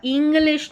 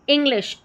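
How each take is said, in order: First: इंग्लिश said with a long stretched ee at the start; मिसाल के तौर पर लंबी ई वाला इंग्लिश; wrong long ee. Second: इंग्लिश with a short clipped i, not a long ee; short i demo. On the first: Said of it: "इंग्लिश नहीं बोल रहे हैं". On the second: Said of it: "ई का short sound आ रहा है". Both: Shown as a demonstration.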